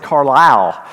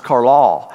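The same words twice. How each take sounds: First: "Carlisle" said the Southern Illinois way, with a full "lyle"; Southern Illinois pronunciation. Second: "Carlisle" drawled the Kentucky way, like Car-lall; Western Kentucky pronunciation. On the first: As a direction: stress and show "Carlisle" as Car-LYLE, Illinois style. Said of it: "when I was in Southern Illinois, I said". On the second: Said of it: "I'm fully Western Kentucky". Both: Shown as a demonstration.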